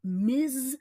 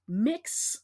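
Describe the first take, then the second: First: The word ends with a 'z' sound. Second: The word ends with a 'ks' sound. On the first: The speaker calls it wrong. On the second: The speaker calls it right.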